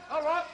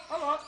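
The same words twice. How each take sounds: The two takes are said the same way.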